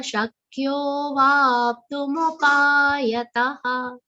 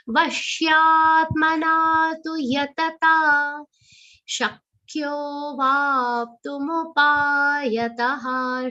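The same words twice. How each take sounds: First: Shakyo with a long o, then vaptumupayataha slowly; slow chant holding the o of Shakyo. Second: Chanted, intone it slowly; chanted verse. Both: Shown as a demonstration. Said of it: "long sound followed by avagra".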